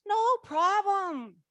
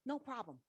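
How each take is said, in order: First: High, slow, light mentor voice; mentor's breezy reassurance. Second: Said in the usual way. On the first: Retold or imitated. The laughing mentor Betty brushes off the worry, breezy. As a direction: toss it off lightly, as the amused mentor. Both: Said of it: "She goes".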